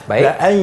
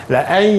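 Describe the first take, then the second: Both takes have the same delivery.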